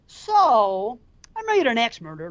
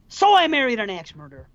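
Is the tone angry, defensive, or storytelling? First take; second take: storytelling; angry. First: It is said like telling a story. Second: It is said angrily.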